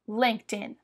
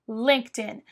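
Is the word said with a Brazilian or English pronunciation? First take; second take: English; English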